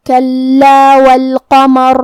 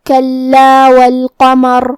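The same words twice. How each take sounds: First: کلا with doubled lam and heavy ra at the end of والقمر; slow recited کلا والقمر; tajweed recitation. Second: کلا with a doubled held lam, slow and chanted; slow Quranic chant of کلا والقمر; tajweed recitation. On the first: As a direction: chant کلا والقمر slowly, linked on. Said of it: "را کو موٹی آواز میں پڑھنا ہے". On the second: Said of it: "حرف اللام پہ تشدید ہے". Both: Shown as a demonstration.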